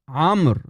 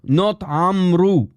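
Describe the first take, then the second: First: The name ends on a consonant, no final vowel. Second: The name ends with an added u vowel. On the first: The speaker calls it right. "It's Amr bin Hazm" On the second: The speaker calls it wrong. "The waw is silent"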